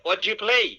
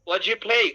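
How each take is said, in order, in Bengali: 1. প্রথম তিনটি শব্দ মিশে একটা শব্দ হয়ে গেছে। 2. প্রথম তিনটি শব্দ মিশে একটা শব্দ হয়ে গেছে।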